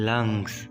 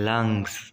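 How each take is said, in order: No difference in how they are said.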